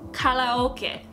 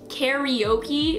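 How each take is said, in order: First: It is said with a Japanese pronunciation. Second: It is said with an American English pronunciation. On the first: The speaker calls it right. "but it's actually pronounced karaoke" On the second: The speaker calls it wrong. "karaoke is how we say it in English"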